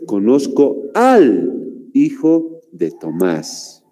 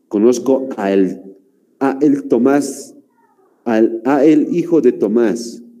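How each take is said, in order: First: 'A' and 'el' merge into one word, 'al'. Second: 'A' and 'el' are said as separate words. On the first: The speaker calls it right. "lo correcto es" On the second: The speaker calls it wrong. "Si pronuncian lento, incluso se hace difícil"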